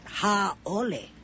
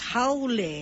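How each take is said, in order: First: A glottal stop breaks between the a and o. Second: The vowels run together without a glottal stop. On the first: The speaker calls it wrong. "not haole" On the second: The speaker calls it right. "the word is haole, There is no okina between the A and the O"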